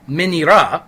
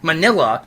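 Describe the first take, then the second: First: It is said with Japanese sounds. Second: It is said in the traditional English way. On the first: This is how the name is said in Japan. The speaker calls it right. "the Japanese pronunciation of his name" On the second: It makes the name sound like an ice cream topping. The speaker calls it wrong. "the traditional pronunciation of his name, ... is terrible"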